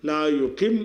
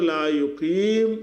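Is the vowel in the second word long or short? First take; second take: short; long. First: The vowel before the final m is short. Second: The vowel before the final m is long. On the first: The speaker calls it right. "லா யுக்கிம் என்று நம்ம சொல்கிற காரணத்தினால ஏ போயிடுது" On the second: The speaker calls it wrong. "லா யுக்கீம் என்று சொல்லாமல்"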